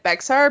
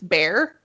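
First: The name is said the way it is spelled. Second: The name sounds just like the word bear. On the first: This is how an outsider would read it. The speaker calls it wrong. "It looks like Bexar" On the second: This is how locals actually say it. The speaker calls it right. "but it's Bear"

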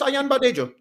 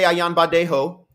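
First: The name is said with a Nigerian pronunciation. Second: The name is said with a Spanish-like pronunciation. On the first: The speaker calls it right. "It's just Ayanbadejo" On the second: The speaker calls it wrong.

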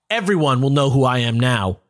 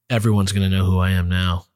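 First: It is said in a lively, not somber way. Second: It is said in a somber, subdued way.

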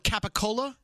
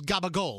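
First: It starts with k and keeps the final vowel. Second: It starts with g and drops the final vowel.

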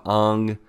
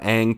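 First: The name has a Japanese-style pronunciation. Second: The name has an ordinary American English pronunciation. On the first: "they tried to be more accurate with how they pronounced the names" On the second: "more Americanized"

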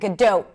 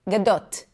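First: The final T is held with no release. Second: The final T is clearly released and audible. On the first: The speaker calls it wrong. "it's a held T, which means there is no T there. It's just an abrupt stop of air" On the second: The speaker calls it right. "That doesn't happen in Hebrew. A T is a T is a T is a T"

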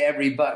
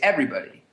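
First: The stress falls on a later syllable. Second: The stress falls on the first syllable. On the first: The speaker calls it wrong. "we don't say everybody" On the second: The speaker calls it right. "we say everybody"

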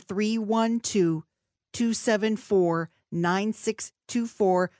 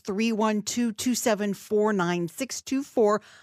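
First: The number is said slowly and deliberately. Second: The number is said at normal, quicker pace.

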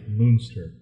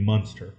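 First: The first vowel sounds like German 'Mueller'. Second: The first vowel sounds like plain English 'mun'. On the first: The spelling with M-U-E suggests this reading. "anytime I see that M-U-E, I almost think like Mueller" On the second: Without the E the word would read this way. "If the E were gone, I would think it would be Muenster"

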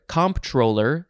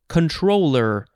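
First: It begins with comp, with a P sound. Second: It begins with con, without a P sound. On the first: "I'll just say comptroller because that's what I've heard" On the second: "one of the approved pronunciations is just controller"

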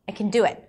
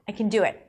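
First: Can is reduced to a weak kun. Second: Can is reduced to a weak kun.

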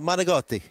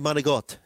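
First: The word ends with its final vowel sounded. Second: The word ends without its final vowel. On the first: This is how the speaker's own people say it. "that's manigotti is the way we would say it" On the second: Many people say it this way out of carelessness. "a lot of people will say manigot, you know, and they'll drop the I"

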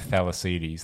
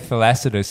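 First: The word ends with a long 'deez' sound. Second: The word ends with a short 'dus' sound. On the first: This is how an Australian would say it. "Australian pronunciation would have Thalassides, like... Archimedes" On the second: This is closer to the original Greek. "probably closer to a Greek pronunciation"

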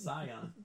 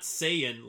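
First: The word does not sound like 'say in'. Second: The word sounds like 'say in'. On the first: The speaker calls it right. "It's Scion" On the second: The speaker calls it wrong. "it's not Saiyan like say in"

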